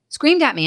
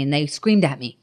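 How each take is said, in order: First: Screamed pitched up high and leaned on; stress on screamed. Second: Said in the usual way. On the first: Real, not acted. Repeating to the host, Screamed hit high and hard.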